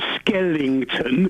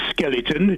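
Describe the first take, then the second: First: An extra 'ing' sound is added mid-word. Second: No 'ing' sound is added mid-word. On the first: The speaker calls it wrong. "you were going on about Skellington" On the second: The speaker calls it right. "No I N G in skeleton"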